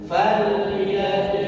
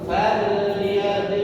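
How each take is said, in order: The two takes are said the same way.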